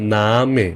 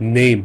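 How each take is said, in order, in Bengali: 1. এটি দুই শব্দাংশ, 'nah' তারপর 'meh'। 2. এটি এক শব্দাংশ, ইংরেজি 'name'-এর মতো। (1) "জার্মানে বলবেন নামে" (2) "ইংলিশে বললে নেম বলতেন"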